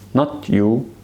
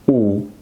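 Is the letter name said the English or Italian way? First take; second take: English; Italian. First: The letter is named as in English. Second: The letter is named as in Italian. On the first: The speaker calls it wrong. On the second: The speaker calls it right. "it always pronounce it like this"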